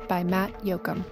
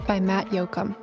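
The two takes are said the same way.

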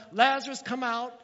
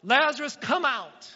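First: High, loud call; retelling the command with a loud call; shouting. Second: Loud high call into the tomb; commanding shout to a dead friend. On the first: Acted. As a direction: shout the name across the grave. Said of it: "And then he shouts". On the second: A narrator's reading. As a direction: call him out with full force. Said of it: "Then Jesus shouted".

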